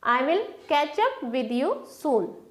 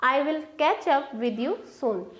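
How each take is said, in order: Both takes have the same delivery.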